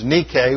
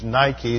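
First: It is pronounced the original Greek way. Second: It is pronounced the usual English way. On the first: The speaker calls it right. "The noun is Nike" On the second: The speaker calls it wrong. "mispronounced in English parlance as Nike"

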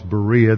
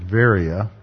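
First: The word begins with a B sound. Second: The word begins with a V sound. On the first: "what the Bible calls Berea" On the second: "They pronounce it Varia"

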